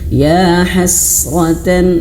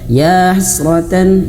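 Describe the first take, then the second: First: The s is held with flowing breath. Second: The s is rushed through quickly. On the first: The speaker calls it right. "diberhentikan dulu, dialirkan anginnya" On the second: The speaker calls it wrong. "Jangan terlalu cepat"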